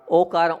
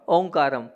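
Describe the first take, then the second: First: The first vowel is plain, with no nasal sound. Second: The first vowel is nasalized with an 'n' sound. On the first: The speaker calls it right. "वहाँ पर ओकारम है।" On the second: The speaker calls it wrong. "आप लोग क्या करते हैं उच्चारण"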